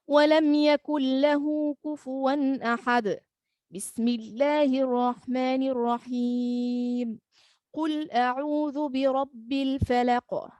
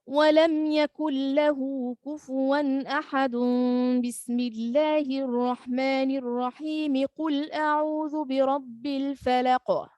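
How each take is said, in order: First: Each phrase is separated by a pause and breath. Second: All phrases are joined in one breath.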